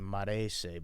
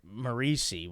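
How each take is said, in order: First: The name is said the Italian way. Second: The name is said the family's everyday way. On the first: This is how it would be said in Italy. "in Italy it would be Marese" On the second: This is how the family says it. "my name's Marisi"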